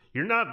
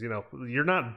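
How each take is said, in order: First: Not pushed up high; stress on not. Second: Said in the usual way. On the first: Real, not acted. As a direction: hit not with a sharp rise. Repeats it, pitch jumps up.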